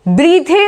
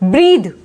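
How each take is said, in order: First: The final e is pronounced as a vowel. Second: The final e is silent. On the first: The speaker calls it wrong. "ब्रीथे नहीं बोलेंगे" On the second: The speaker calls it right. "इसको बोलेंगे हम ब्रीद"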